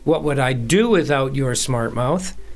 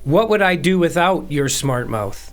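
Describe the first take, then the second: First: The stress is on "do". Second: The stress is on "without".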